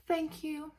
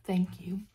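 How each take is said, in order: First: Breathy soft thanks, higher; a softer thank you; thanking gently, higher than usual. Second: Unvoiced whispered thanks; a tiny whispered thank you. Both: Shown as a demonstration. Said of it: "thank you repeated fading".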